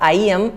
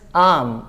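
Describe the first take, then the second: First: It is said as two full separate words. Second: It is said as one short contracted syllable. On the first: The speaker calls it wrong. "It is not आई एम" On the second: The speaker calls it right. "It is आम"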